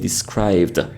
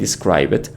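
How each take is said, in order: First: The -ed ending adds no extra syllable. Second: The -ed ending is said as an extra syllable. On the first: The speaker calls it right. "we say described" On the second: The speaker calls it wrong. "Instead of saying describe it"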